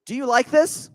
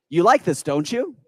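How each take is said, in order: First: Said in the usual way. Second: "You like this" stated firmly, then a rising "don't you?"; tie-down question. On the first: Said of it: "You could ask somebody". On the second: Shown as a demonstration. Coach showing the audience a statement with a rising tag. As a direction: assert it, then lift "don't you?" at the end. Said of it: "Tie down".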